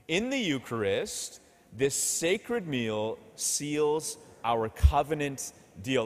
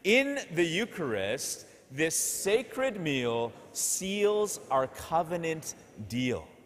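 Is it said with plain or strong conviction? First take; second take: plain; strong. First: It is said in a plain, ordinary way. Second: It is said forcefully, with strong conviction.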